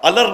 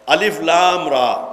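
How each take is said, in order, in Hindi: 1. हुरूफ़ एक शब्द में जोड़कर पढ़े जाते हैं। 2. हर हर्फ़ का नाम अलग-अलग बोला जाता है। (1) "अलर नहीं पढ़ेंगे" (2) "बिल्कुल अलग अलग"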